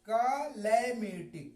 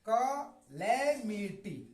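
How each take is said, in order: First: The first vowel sounds like 'cut'. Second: The same.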